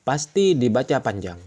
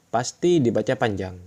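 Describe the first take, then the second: The two takes are said the same way.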